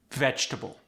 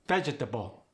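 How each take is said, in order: First: Said in the usual way. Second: "Vegetable" in four even syllables; veh-jeh-tuh-bul for "Vegetable", evenly weighted; equal syllable stress. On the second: Shown as a demonstration. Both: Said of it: "each syllable gets equal stress".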